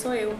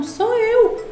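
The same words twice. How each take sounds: First: Said in the usual way. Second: High, insistent retelling of a protest; insistent retort. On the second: Retold or imitated. Speaker retells correcting a doubtful caller, insistent. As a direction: protest it much higher, as if disbelieved.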